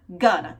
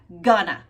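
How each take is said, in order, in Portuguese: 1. As palavras são reduzidas e ligadas uma à outra. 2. As palavras são reduzidas e ligadas uma à outra.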